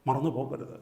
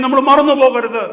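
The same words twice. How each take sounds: First: Soft, low admonition; hushed reminder. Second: Loud, high admonition; raised preaching appeal. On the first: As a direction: drop right down to caution the congregation. Hushed reminder after loud preaching. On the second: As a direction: urge the congregation with a raised voice. Reminder repeated in raised preaching voice. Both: Real, not acted.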